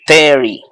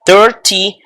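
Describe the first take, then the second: First: "thirty" said as "therry", T tapped; softened T. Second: "Thirty" with a crisp T, "thir-tee"; T pronounced. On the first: Teacher offers the alternative pronunciation, tapped T. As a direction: let the T in "thirty" melt into a tap. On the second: Teacher models thirty for students, full T. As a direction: sound the middle T in "Thirty", louder and higher. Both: Shown as a demonstration. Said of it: "o lo pueden pronunciar".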